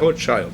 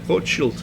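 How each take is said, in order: First: The name is pronounced the English way. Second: The name is pronounced the German way. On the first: "em inglês é Rothschild" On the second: "em alemão é Rothschild"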